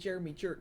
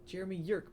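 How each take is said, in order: First: The last name begins with a J sound. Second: The last name begins with a Y sound. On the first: "it's not as funny as saying Jeremy Jerk" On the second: "it's pronounced Yerk"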